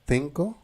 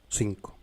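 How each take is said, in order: First: The word begins with a th sound. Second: The word begins with an s sound. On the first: This is how it is said in Spain. "en espagnol on peut dire cinco" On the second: This is how it is said in Latin America. "on peut dire en Amérique cinco"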